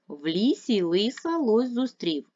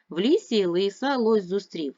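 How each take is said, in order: First: The phrase is spoken at a faster pace. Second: The phrase is spoken at the fastest pace. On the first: "Швидше. Разом" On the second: "Ще швидше"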